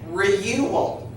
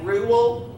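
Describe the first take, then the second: First: The vowel sounds like the word 'you'. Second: The vowel sounds like 'oo' in 'cool'. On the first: The speaker calls it wrong. "we don't say" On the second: The speaker calls it right. "this is a long O O sound"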